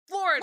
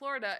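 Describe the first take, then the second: First: It is said loudly and emphatically. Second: It is said flatly, without emphasis.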